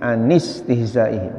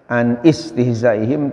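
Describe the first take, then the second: First: The two words are linked without a glottal stop. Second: A glottal stop separates the two words. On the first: The speaker calls it right. "hamzahnya seolah-olah enggak ada" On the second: The speaker calls it wrong. "dibacanya enggak enggak boleh ya"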